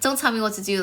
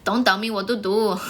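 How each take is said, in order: First: It is said in the speaker's usual accent. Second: It is said in an Indian accent, t like d. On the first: "when I say "Don't tell me what to do," I always do this" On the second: "They'll be like"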